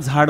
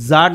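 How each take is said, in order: First: The first consonant has a breathy release. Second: The first consonant has no breathy release. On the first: The speaker calls it right. "झाड म्हण" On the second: The speaker calls it wrong. "ते जाड नाही"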